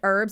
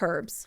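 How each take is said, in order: First: It is said the American way. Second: It is said the non-American way. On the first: The speaker calls it wrong. "Americans calling it herbs" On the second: The speaker calls it right. "and not herbs"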